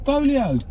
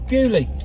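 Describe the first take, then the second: First: The name is said in three syllables, Bo-lee-oh. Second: The name is said in two syllables, Bew-lee. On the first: This is how the French visitors said it. "they wanted to go to Bolio" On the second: This is how locals say it. "Oh yeah, Bewley"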